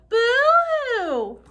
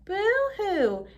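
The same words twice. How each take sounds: First: It is said loudest of all. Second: It is said louder than before.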